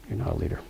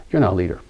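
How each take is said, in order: First: "You're not a leader" repeated much softer, almost to himself; hushed echo. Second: Said in the usual way. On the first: Acted. Teacher repeats the point to listeners, much softer. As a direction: let the line fall away softly.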